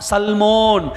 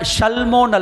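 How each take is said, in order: First: The name begins with an s sound. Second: The name begins with an sh sound. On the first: The speaker calls it right. "சா சல்மாக் சல்மோன்" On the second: The speaker calls it wrong. "ஷா உச்சரிக்க கூடாது"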